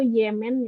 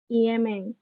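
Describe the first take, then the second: First: It is said as the familiar two-syllable Yemen. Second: It is said as Japanese syllables, i-e-me-n. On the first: "Kan kalau yang huruf Romaji atau Latin itu Yemen ya" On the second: "Di Jepangnya ini jadi Yemen"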